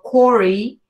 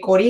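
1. El nombre se dice con R inglesa. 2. El nombre se dice con R española. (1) "en inglés sería como Corey" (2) "porque Corey es en español"

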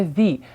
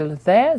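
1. Артикль закінчується довгим звуком ee. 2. Артикль закінчується коротким звуком uh. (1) "змінює свою вимову на the" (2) "артикль the змінює свою вимову"

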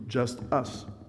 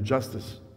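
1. Les deux mots sont prononcés séparément et avec soin. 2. Les deux mots s'enchaînent rapidement pour n'en faire qu'un.

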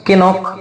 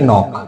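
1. n-এর আগে একটি k ধ্বনি শোনা যায়। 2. শব্দটি সরাসরি একটি n ধ্বনি দিয়ে শুরু হয়। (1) "উচ্চারণ হওয়ার কথা ছিল কি কে নক" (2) "বাট এটা হবে কি নক"

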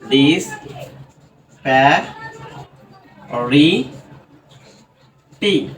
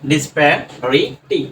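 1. শব্দটিকে আলাদা আলাদা সিলেবলে ভাগ করা হয়। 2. শব্দটি কোনো বিরতি ছাড়াই মসৃণভাবে বলা হয়।

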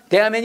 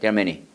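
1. 음이 높게 유지돼요. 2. 음이 낮게 떨어져요. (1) "여기서 만약 제가 There are many 하잖아요. 그 못해 영어" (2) "딱 떨어지잖아요"

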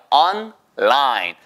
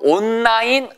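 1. 짧게 끊어서 on과 line을 나눠요. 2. n은 l 소리로 섞여요. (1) "on까지 하시고요... 끊으세요" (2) "절대로 온라인, 아, 온라인, 아, 다 아니에요. 한국어의 자음 접변이 적용된 케이스예요"

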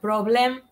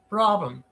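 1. La segunda sílaba tiene una vocal plena, sin reducir. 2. La segunda sílaba tiene una vocal schwa reducida. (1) "Not problem"

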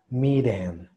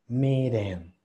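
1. La consonante del medio es un flap rápido, parecido a una R. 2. La consonante del medio es un flap rápido, parecido a una R.

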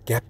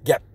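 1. 마지막 p는 강하게 숨을 터뜨리며 나요. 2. 마지막 p는 터뜨리지 않고 모음을 짧게 끊어요. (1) "gap 이렇게 푸에 강하게 뒤에 자꾸 신경을 쓰시죠" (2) "되게 무성음이다 보니까 gap 이렇게 됩니다. 푸안 해도 돼요"

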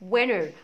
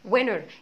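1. الـ t بعد الـ n يُحذف. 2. الـ t بعد الـ n يُحذف.

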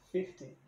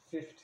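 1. A palavra termina com a vogal 'ee' bem clara. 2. A palavra não termina com a vogal 'ee' no final. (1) "O correto é você falar o Y no final" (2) "os brasileiros fazem o som T mudo ... e tá errado"

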